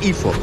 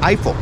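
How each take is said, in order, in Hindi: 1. नाम स्थानीय तरीके से बोला गया है। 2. नाम गैर-स्थानीय तरीके से बोला गया है।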